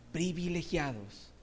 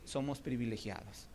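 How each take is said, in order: First: Slow, drawn "privilegiados"; slow emphasis. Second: Quiet, low "somos privilegiados"; soft. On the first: Preacher repeating "privilegiados" slowly for weight. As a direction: savour each syllable of "privilegiados". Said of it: "repeated word, slower". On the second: Preacher softly telling the church "privilegiados". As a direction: drop down on "privilegiados". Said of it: "repeated word, first soft". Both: Shown as a demonstration.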